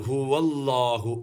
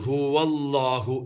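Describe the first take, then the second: Both takes have the same delivery.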